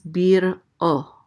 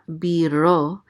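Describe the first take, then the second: First: A glottal stop separates the two syllables. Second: The syllables run together without a break. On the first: The speaker calls it right. "there's a glottal stop right here" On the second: The speaker calls it wrong. "It's not biro"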